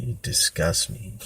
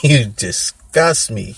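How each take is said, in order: First: Retold quiet contempt; muted disgust. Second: Slow, louder mock contempt; retold scorn, hammed up and stretched; emphatic disgust. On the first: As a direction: say it under your breath to a pathetic brother. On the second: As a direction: draw it out and hit DISGUST hard. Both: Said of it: "I would just look at him like".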